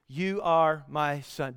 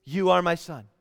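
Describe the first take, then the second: First: Slow, softer, lower repetition; slow reminder. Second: Said in the usual way. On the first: Acted. The Father reminding Jesus who he is, slow and soft. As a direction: let each word land slowly and quietly. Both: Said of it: "he reminds him who he is".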